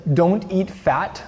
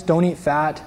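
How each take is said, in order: First: Don't eat fat read very slowly, each word weighted; slow emphatic quote. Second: Said in the usual way. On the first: Shown as a demonstration. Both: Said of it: "it says".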